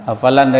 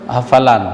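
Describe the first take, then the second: No difference in how they are said.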